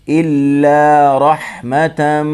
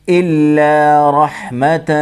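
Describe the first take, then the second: Both takes have the same delivery.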